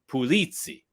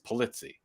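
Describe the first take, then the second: First: The name is said with a Sicilian Italian pronunciation. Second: The name is said with an American pronunciation. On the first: "when you go over to Sicily, Marsala, Sicily, it's Pulizzi" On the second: "the Americanization of my name is Polizzi"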